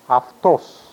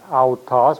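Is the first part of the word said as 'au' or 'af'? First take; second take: af; au. First: The word begins with 'af' with an f. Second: The word begins with a vowel glide 'au'. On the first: The speaker calls it right. "but aftos" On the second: The speaker calls it wrong. "it's not autos"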